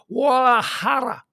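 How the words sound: It is stretched out in a put-on foreign style. The speaker calls it wrong. "stretch it out to Guadalajara"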